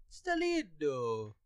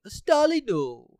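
First: Slow, soft "Stalino" in a put-on Italian accent; mock Italian accent. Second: Announcing the name. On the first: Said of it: "I'm not great with accents". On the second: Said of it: "Stalino is actually a pretty Italian name". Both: Shown as a demonstration.

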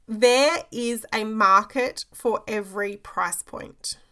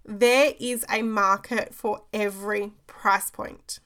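First: "There is a market for every price point" said slowly and deliberately, each word weighted; slow emphatic statement. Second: "There is a market for every price point" repeated slowly, weight on "There"; slow emphatic repeat. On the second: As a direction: drive it home, slower and firmer on "There". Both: Shown as a demonstration. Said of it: "I'm gonna pause for effect around this one".

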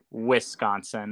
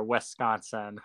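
First: "Wisconsin" with a crisp i as in igloo; hard I. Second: "Wisconsin" with a soft first i, like "Wesconsin"; imitated Wisconsin accent. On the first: Shown as a demonstration. Guest showing how locals say it, "Wisconsin" with igloo's i. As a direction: say "Wisconsin" starting "Wiss", short i. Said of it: "hard I, like igloo". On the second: Guest teasing host's accent, imitating her "Wisconsin" with an eh. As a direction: say "Wisconsin" with the first vowel opened to eh. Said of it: "I love the accent there".

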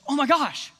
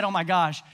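First: Retold shocked exclamation, pitched up; mock a startled little outburst; mild shock. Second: Said in the usual way. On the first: Preacher imitating Katie shocked at one moment, mildly startled. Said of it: "she got shocked". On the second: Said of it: "when she said".

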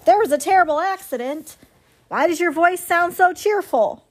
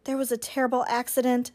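First: Higher, disbelieving goose echo; incredulous goose. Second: Quick, soft, even robot reply; mildly cheerful robot. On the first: Goose questioning the robot's cheerful report, incredulous. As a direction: throw it back as a shocked question. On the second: Robot explaining the accident to the goose, mildly cheerful. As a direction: report it with unfitting ease. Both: A narrator's reading.

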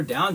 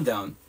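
First: Said in the usual way. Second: Down dropped lower and falling; heavy, low down. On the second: Shown as a demonstration. Coach stressing how low he was, dropped down. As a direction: let the down sink low and land. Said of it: "then you were down, down".

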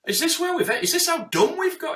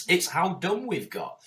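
First: Much higher, louder, in disbelief; incredulous. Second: Said in the usual way. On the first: Real, not acted. Hearing "tidy your room" advice, high incredulous outcry. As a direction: throw it up in exasperation. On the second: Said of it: "It's like, yes".

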